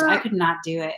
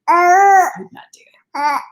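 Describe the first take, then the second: First: Said in the usual way. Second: Higher, louder, slow exclamation; emphatic. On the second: Real, not acted. Vlogger telling Floridians she couldn't handle it, loud slow exclaim. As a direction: drag it out in disbelief.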